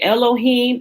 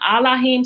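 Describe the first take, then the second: First: The word begins with an e sound. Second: The word begins with an a sound. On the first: The speaker calls it wrong. "although it's the wrong pronunciation" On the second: The speaker calls it right. "although it was the proper pronunciation of it"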